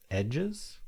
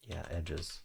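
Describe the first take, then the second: First: Edges asked with a high, rising, questioning lift; unsure guess. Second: Said in the usual way. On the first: Real, not acted. Solving the crossword alone, unsure guess. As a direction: float the word edges up as a tentative guess.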